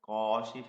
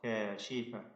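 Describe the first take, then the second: First: The first consonant is heavy and thick. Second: The first consonant is light and thin. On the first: The speaker calls it wrong. "കാശിഫ പറയരുത്" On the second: The speaker calls it right. "ക ഇസ്തിഫാലിന്റെ അക്ഷരമാണ്"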